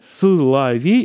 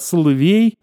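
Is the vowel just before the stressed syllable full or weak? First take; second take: full; weak. First: The vowel before the stress is a full a. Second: The vowel before the stress is a weak schwa. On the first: "не «сыловей»" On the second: "у нас уже нет «а» в первом предударном, а он становится такой же, как все остальные, слабенький"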